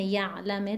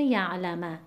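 First: یعلمه as "YA'-lami", first syllable stressed. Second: یعلمه as "ya'-LA-ma", middle syllable stressed. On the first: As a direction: lean on "ya'", light final i in یعلمه. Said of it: "یعلمه کسر عارضی هست". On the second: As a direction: lean on "la", final a in یعلمه. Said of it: "کدوم عارضی نیست". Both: Shown as a demonstration.

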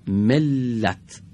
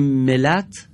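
First: ملت with the ل doubled and held; the right way, with tashdid; with gemination. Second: ملت with a single short ل; the wrong way, no tashdid; without gemination. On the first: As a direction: say ملت as mel-lat, lean on the double l. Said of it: "پس باید بگیم". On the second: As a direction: say ملت as mel-at, no doubling. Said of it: "لام بدون تشدید خونده شده". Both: Shown as a demonstration.

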